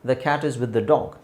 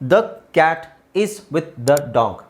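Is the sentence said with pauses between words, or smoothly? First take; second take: smoothly; pauses. First: It is fast and smooth, with no pauses. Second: It is fast, with pauses between the words. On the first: "ಸ್ವಲ್ಪ ಫಾಸ್ಟಾಗಿ gap ಕೊಡ್ದಂಗೆ ಹೇಳಿದ್ರೆ" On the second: "ಫಾಸ್ಟಾಗಿ ನೀವು gap ಕೊಟ್ಟು ಓದೋದಾದರೆ"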